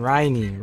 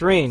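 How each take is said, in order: First: The name is said as two syllables. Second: The name is said as one syllable. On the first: The speaker calls it wrong. "not not Ryan" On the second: The speaker calls it right. "that's rain"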